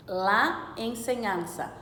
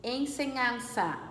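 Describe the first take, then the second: First: "La" slow and firm before "ensinança"; stress on LA. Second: Said in the usual way. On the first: Shown as a demonstration. Teacher stressing the article "La" for students. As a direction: lean on the article "La", slowly. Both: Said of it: "Vejam a letra E".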